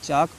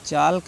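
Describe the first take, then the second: First: The L sound is silent. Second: The L sound is pronounced. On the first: The speaker calls it right. "चाक पढ़ना है" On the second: The speaker calls it wrong. "चाल्क नहीं"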